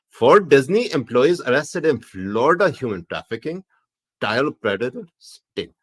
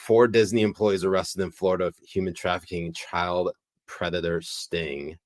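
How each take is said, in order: First: It is read in a Pakistani accent. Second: It is read in the speaker's normal accent.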